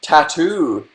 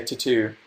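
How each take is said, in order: First: "Tattoo" with a full first vowel, TAT-too; careful pronunciation of tattoo. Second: "tattoo" with a weak first vowel, tuh-TOO; first syllable of "tattoo" reduced to a schwa; odd pronunciation of tattoo. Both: Shown as a demonstration. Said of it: "Why do I say tattoo weird?".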